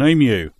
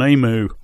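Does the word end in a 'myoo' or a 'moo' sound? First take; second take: myoo; moo. First: The word ends with a 'myoo' sound. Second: The word ends with a 'moo' sound. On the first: The speaker calls it right. "is called an emu" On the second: The speaker calls it wrong. "a noise that a cow would make"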